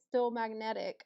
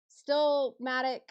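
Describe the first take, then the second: First: The name is said as still magnetic. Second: The name is said as two parts, still matic. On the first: The speaker calls it wrong. "I still say still magnetic" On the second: The speaker calls it right. "I guess it's still Matic Network"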